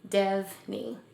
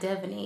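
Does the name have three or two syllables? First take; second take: two; three. First: The name is said with two syllables. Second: The name is said with three syllables. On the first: The speaker calls it right. "It's just Devney, N- not a second I" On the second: The speaker calls it wrong. "not Devaney"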